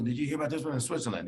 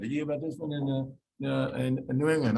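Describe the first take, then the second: First: A quick, slightly put-on voice of a patient rattling off internet finds; eager patient. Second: A lightly put-on patient voice, listing one more case; mildly mock the patient's eager question. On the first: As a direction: breezily imitate a patient who has read too much online. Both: Patient quoting internet cancer cases.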